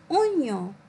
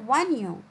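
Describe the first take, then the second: First: The word begins with a plain 'o' sound. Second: The word begins with a 'wa' sound. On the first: The speaker calls it right. "J'entends ici oignon" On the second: The speaker calls it wrong. "et non pas oignon"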